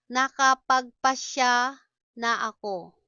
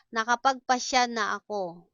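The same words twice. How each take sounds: First: Syllable by syllable, pause mid-phrase. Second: Said in the usual way. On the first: Shown as a demonstration. Slow model, then natural speed.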